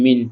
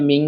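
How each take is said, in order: First: Said in the usual way. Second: "মিং" with a nasal ng; ghunnah. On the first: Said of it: "এখানে পাওয়ার কথা ছিল মিম নুন জের মিন". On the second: Shown as a demonstration. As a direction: hum the n of "মিং" through the nose. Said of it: "গুণনা করে পড়তে হবে". (গুণনা করে "মিং")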